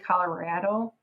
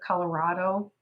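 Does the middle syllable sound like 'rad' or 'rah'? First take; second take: rad; rah. First: The middle syllable rhymes with the word rad. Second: The middle syllable has an open ah vowel. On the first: This is the speaker's habitual, family pronunciation. The speaker calls it wrong. "I usually say" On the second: This is the standard pronunciation. The speaker calls it right. "Instead of"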